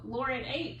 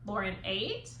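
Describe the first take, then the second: First: The voice falls at the end like a statement. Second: The voice rises at the end like a question. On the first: It states a fact. "Lauren ate with a period" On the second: It asks a question. "change the inflection"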